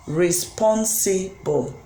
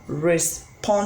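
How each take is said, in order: First: "responsible" drawn out slowly, syllable by syllable, falling at the end; slow syllable demo. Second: Said in the usual way. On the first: Shown as a demonstration. Teacher showing students the syllables of "responsible", slowly. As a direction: stretch "responsible" so each syllable is heard. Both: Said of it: "a word like".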